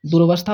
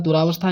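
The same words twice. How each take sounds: First: दुरवस्था with short र, no long आ; दुरवस्था said the correct way; correct pronunciation. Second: दुरावस्था with a long आ after र; दुरावस्था the common mistake; wrong pronunciation. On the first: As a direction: say दुरवस्था as du-ra-va-stha, not du-raa. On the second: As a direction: say दुरावस्था stretching the raa. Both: Shown as a demonstration. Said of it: "दुरावस्था नहीं".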